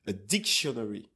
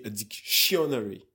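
First: A DICtionary, weight on "dic"; stress on first syllable. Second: A dicTIOnary, weight on the second syllable; a dictionary as dic-SHUN-ary, punching "shun"; wrong stress. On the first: Guest demonstrates English stress, dictionary stressed on DIC. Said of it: "there is an accent on dictionary". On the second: Guest shows what you cannot say, dictionary stressed on TION. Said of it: "you cannot say". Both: Shown as a demonstration.

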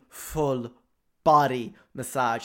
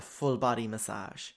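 First: "full" drawn out and loud, then "body massage" punched; slow, weighty stress on "full" and "body"; emphatic repeat. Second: Said in the usual way. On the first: Real, not acted. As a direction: land "full body massage" slowly, word by word, loudly.

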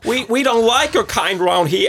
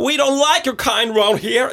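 First: Put-on much higher, louder Irish accent; a hostile Irish villager. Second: Much higher, louder Irish accent, hammed up; best shot at an Irish local. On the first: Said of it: "Det er mitt forsøk". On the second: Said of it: "mitt beste forsøk på irsk".

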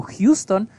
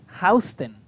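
First: "Houston" said HYOO-ston, slowly; as spelled. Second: "Houston" said HOW-sten; New York street pronunciation. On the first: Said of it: "se escribe como Houston". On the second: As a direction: say "Houston" with HOW as the first syllable. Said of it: "pero se pronuncia Houston". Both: Shown as a demonstration.

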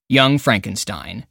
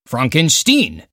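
First: Said in the usual way. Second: Frankenstein said as Fronk-en-steen, with an "ah" vowel and a long "een" ending; Fronkensteen pronunciation. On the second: Retold or imitated. Quotes Gene Wilder's famous line.

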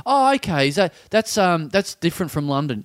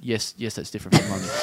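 First: Nosy weirdo. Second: Low, quieter, patient reply; reluctant woman. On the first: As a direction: imitate a clueless, over-interested questioner. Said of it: "and she's like". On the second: Cornered woman answering the tram weirdo, low restrained voice. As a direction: imitate a weary stranger answering low. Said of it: "the woman is like". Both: Retold or imitated.

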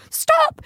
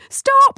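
First: High, loud cry of stop; panicked yell. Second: Even higher, louder cry of stop; panicked yell. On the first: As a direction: yell it at the oncoming van. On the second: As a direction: scream stop with full force. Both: Retold or imitated. Sister yelling at approaching van.

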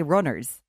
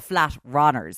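First: Said in the usual way. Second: "runners" with an open vowel, like "rahn-ers"; flat Dublin vowel. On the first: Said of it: "it's a flat runners". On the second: Retold or imitated. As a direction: flatten the first vowel of "runners" in Dublin style. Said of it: "it's a Dublin runners".

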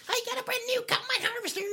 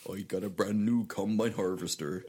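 First: Very high, fast squeaky squirrel voice; chipmunk-speed squeak. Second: Lightly voiced West Country squirrel accent; a hint of a Dorset farmer accent. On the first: Pretend. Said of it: "Or you be like". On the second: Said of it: "kind of wurzily".

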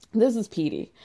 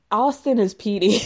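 First: This is Petey with the word This leaned on; stress on This. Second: Austin is Petey with Austin punched a little louder; stress on Austin. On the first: Introducing the camp flirt, weight on This. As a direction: point at it: This is Petey. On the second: Naming the real-life Petey, stress on Austin. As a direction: land the name Austin hard. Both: Shown as a demonstration.

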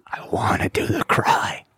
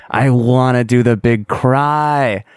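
First: Breathy confiding whisper of "I wanna do the cry"; hushed longing whisper. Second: "I wanna do the big cry" said slowly in full voice, leaning on "big"; slow voiced insistence; slow emphatic wish. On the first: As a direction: let "I wanna do the cry" slip out as a secret, barely voiced. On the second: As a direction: draw out "I wanna do the big cry" like a firm declaration. Restating the wish aloud. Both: Real, not acted.

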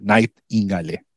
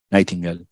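First: Nightingale ending in a sounded "-gá-le"; Spanish-style pronunciation. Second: Said in the usual way. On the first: Shown as a demonstration. Lecturer unsure of the author's surname, Spanish-style Nightingale with "-le" ending. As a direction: say Nightingale as written in Spanish, final e voiced. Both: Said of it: "no sé cómo se pronuncia".

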